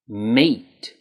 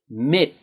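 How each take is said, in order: First: The vowel is long and tense, like in 'eat'. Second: The vowel is short and lax, like in 'it'. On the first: The speaker calls it right. "It's meet" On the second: The speaker calls it wrong. "make sure you're not saying mit"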